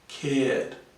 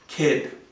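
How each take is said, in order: First: The vowel is long and gliding. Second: The vowel is short and clipped. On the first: The speaker calls it right. "Cared is correct. Longer" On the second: The speaker calls it wrong. "this is a short vowel sound"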